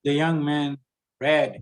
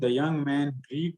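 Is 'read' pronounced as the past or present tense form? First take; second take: past; present. First: Read is pronounced as the past tense form. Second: Read is pronounced as the present tense form. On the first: The action already happened. The speaker calls it right. "It's the past form. It's the same spelling, but it's pronounced as past" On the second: The action is taken as happening now. The speaker calls it wrong. "you are reading the young man read the telegram, but it is not read"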